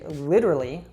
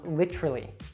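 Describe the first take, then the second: First: The T is a soft, flapped D-like sound. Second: The word is shortened by dropping a syllable. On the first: "with that American T" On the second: "reduce it so it becomes literally"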